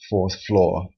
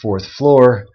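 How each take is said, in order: First: The R sounds after the vowels are dropped. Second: The R sounds after the vowels are pronounced. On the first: "without the R" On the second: "with the R, like I just said it"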